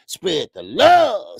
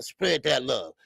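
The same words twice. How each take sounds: First: Drawn-out shout-out. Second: Said in the usual way. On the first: Real, not acted. Streamer hypes up a viewer's message, slow and loud. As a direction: stretch it slow and loud, a little higher.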